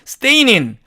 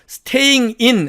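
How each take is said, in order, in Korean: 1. "staying"은 바로 "in"으로 이어져요. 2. 두 단어는 따로 발음해요. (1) "이런 식으로 발음을 변화시켜서" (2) "staying in 하려니까 어렵습니다"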